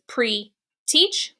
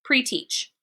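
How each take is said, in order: First: Pre-teach said as one blended word, rising. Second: Pre-teach said as one word, falling to finish; blended pre-teach. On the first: Teacher blends pre-teach for the class, rising. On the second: Teacher confirms blended pre-teach for the class, falling. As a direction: close pre-teach with a settled fall. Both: Shown as a demonstration. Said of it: "put it together".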